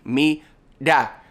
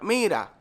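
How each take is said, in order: First: The middle consonant is a plain English D. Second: The middle consonant is a quick tapped R.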